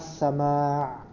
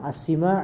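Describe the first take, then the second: First: The vowel after the s is a. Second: The vowel after the s is i. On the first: The speaker calls it right. "yang benar adalah as-sama'" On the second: The speaker calls it wrong. "Yang as-sima' itu kurang tepat"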